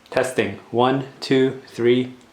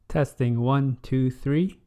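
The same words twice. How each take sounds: First: The voice sounds thinner and less full. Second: The voice sounds richer and more full. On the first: The speaker calls it wrong. "this is the onboard microphone on the D S L R camera" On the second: The speaker calls it right. "a more rich, enhanced sound compared to the camera microphone"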